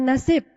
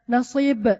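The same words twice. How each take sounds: First: The word is said with plain Indonesian sounds. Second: The word is said with fluent Arabic sounds. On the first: The speaker calls it wrong. "Bukan nasib" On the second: The speaker calls it right. "Bukan nasib aslinya. Nasib"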